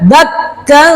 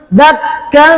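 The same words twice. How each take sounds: Both takes have the same delivery.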